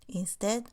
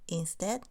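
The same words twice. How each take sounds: No difference in how they are said.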